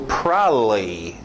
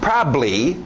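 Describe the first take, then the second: First: Both b sounds are dropped from the word. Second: One b sound is kept, before the final syllable. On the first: "Pessoas preguiçosas, e tem gringo que faz isso, ... É só deixar os B's totalmente fora" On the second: "esse é o mais comum ... Só aquele bli no final"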